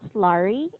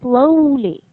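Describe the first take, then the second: First: The word is said with an R-like sound. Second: The word is said with a clear L sound. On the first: The speaker calls it wrong. "It's not slurry" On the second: The speaker calls it right. "it's slowly"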